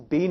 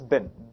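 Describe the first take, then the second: First: The vowel is long, like in 'seen'. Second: The vowel is short, like in 'sit'. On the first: The speaker calls it wrong. "It's not pronounced as been" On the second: The speaker calls it right. "It's pronounced as bin"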